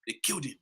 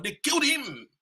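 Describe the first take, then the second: First: Second take, lower and much softer; low grave echo. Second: First take, higher and forceful; emphatic declaration. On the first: Speaker echoing the killing to the crowd, hushed and grave. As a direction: let it sink in, hushed. Repeat drops to low murmur. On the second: Speaker telling the crowd Nkrumah was killed, forceful. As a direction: hammer it out to the crowd. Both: Real, not acted.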